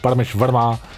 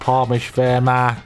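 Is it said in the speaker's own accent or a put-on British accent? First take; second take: own accent; British accent. First: It is said in the speaker's own accent. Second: It is said in a put-on British accent.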